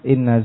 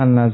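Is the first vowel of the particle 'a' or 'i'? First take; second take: i; a. First: The particle begins with an i vowel. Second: The particle begins with an a vowel. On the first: The phrase works like an oath. "Kapan dibaca kasrah?" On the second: The clause serves as the subject of a verb. "Kapan dibaca fathah?"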